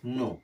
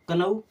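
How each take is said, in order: First: The k at the start is silent. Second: The k at the start is sounded.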